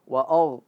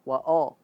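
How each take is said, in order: The two takes are said the same way.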